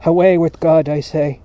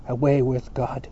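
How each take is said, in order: First: Very loud, emphatic dismissal; insistent shout. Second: Firm dismissal, barely raised; restrained cry. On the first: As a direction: shout it as a defiant command. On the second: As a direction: declare it firmly without shouting. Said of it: "he cried". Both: A narrator's reading.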